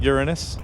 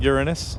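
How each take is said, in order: First: It sounds like 'your anus', stress on the second syllable. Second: The same.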